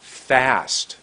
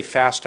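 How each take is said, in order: First: "fast" with a long held vowel; a slow, drawn-out "fast"; lengthened word. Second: Said in the usual way. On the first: Shown as a demonstration. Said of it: "I was making my words longer". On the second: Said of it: "I didn't say fast".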